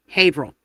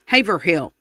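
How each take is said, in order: First: Haverhill shortened to HAY-vril; Northeastern pronunciation. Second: Louder Southern Haverhill, HAY-ver-HILL; Southern accent. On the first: Telling viewers the Northeast way, Haverhill as HAY-vril. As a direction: swallow the hill in Haverhill, HAY-vrul. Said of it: "up in the Northeast". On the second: Showing viewers the Southern way, Haverhill as HAY-ver-hill in a Southern accent. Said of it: "say it with a Southern accent". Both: Shown as a demonstration.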